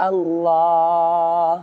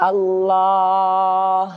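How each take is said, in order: No difference in how they are said.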